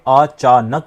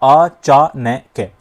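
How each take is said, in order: First: The word is split into three pieces with pauses. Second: The word is split into four pieces with pauses. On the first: The speaker calls it right. "यदि रुक रुक कर आप बोलेंगे अचानक बोला जाए" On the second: The speaker calls it wrong. "यदि आपने नक को भी तोड़ दिया ... गलत हो जाएंगी"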